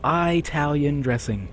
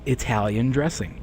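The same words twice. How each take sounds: First: The first syllable does not sound like 'Italy'. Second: The first syllable sounds like the start of 'Italy'. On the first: The speaker calls it wrong. "Let's just say it's bad" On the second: The speaker calls it right. "it's Italy. Therefore, it is Italian dressing"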